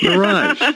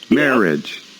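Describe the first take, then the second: First: The stress is on the second syllable. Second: The stress is on the first syllable. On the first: "accent the second syllable" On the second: "we accent the first syllable"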